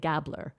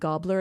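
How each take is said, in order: First: The name is said the Canadian way. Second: The name is said the British way. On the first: The speaker calls it wrong. "I have a North American accent. I'm from Canada, and we tend to say Hedda Gabler" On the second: The speaker calls it right. "with the British accent, people were saying Gobbler"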